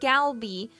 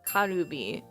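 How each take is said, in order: First: It begins with a clear G sound. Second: It begins with a sound between G and K. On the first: The speaker calls it wrong. "people will read it Calby or Galby, you know, like if they're really American" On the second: The speaker calls it right. "The actual way, it's it's a mix between both letters"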